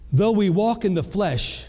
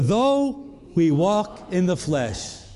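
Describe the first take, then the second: First: The phrase is read at a normal, quicker pace. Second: The phrase is read at a slower pace.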